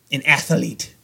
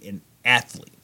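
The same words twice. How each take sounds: First: "athlete" said in three syllables, ATH-uh-leet; extra vowel in athlete. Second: Said in the usual way. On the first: Shown as a demonstration. Goalie joking on "athlete", said as ath-uh-lete. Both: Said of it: "with an extra E in there".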